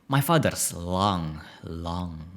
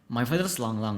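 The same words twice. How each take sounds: First: It is read in an exaggerated, dramatic voice. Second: It is read in a plain, ordinary voice.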